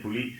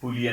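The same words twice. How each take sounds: First: "puli" with the second Malayalam l; second "puli" word. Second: "puli" with the first Malayalam l; first "puli" word. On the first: Linguist contrasting two Malayalam words, second "puli" demonstrated. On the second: Linguist contrasting two Malayalam words, first "puli" demonstrated. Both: Shown as a demonstration. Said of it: "two different words with the same vowel".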